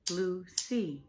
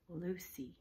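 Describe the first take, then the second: First: Lucy in two firm beats, Lu-cy; syllable by syllable. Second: Said in the usual way. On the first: Shown as a demonstration. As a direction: clap out both syllables of Lucy. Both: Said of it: "It was two".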